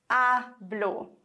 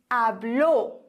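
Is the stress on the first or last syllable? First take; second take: first; last. First: The stress is on the first syllable. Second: The stress is on the last syllable.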